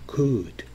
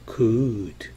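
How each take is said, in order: First: The word is said at normal speed. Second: The word is said slowly and drawn out. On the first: "정상적으로 한다면" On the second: "좀 천천히 한다면"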